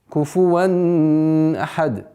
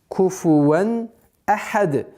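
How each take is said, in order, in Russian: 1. Звук н назализуется и переходит в следующее слово. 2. Звук н произносится чётко перед ahad. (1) "Это категорически запрещено" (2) "ясное произношение танвина"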